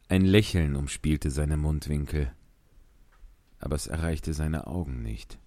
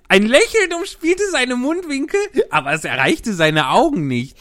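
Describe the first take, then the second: First: It is read in a neutral tone. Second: It is read in a cheerful tone.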